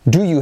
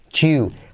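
First: The two words are said fully and separately. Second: The words blend into one syllable "chew".

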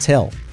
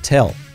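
Both takes have the same delivery.

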